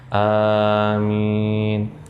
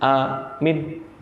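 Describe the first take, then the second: First: Both the first and second vowels are drawn out. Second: Both vowels are short and clipped. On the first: It means grant our prayer. The speaker calls it right. "Depannya agak panjang, di belakangnya agak panjang" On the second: It means a guard or security. The speaker calls it wrong. "Minnya pendek. ... Ini yang benar-benar habis"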